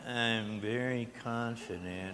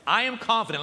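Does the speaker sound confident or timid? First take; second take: timid; confident. First: It is said weakly, without confidence. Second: It is said firmly, with confidence.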